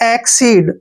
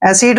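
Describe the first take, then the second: First: It is said 'ek-seed', with a k sound. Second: It is said like 'acid', with no k sound. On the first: The speaker calls it right. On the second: The speaker calls it wrong.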